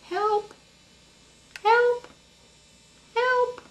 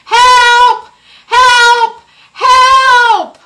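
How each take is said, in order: First: It is called very quietly. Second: It is called really loudly.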